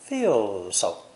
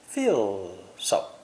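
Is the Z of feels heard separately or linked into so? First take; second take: linked; linked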